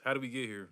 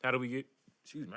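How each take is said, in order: First: Said in the usual way. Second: Hiccuping mid-question; words broken by a hiccup. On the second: Real, not acted. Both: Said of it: "I got the hiccups".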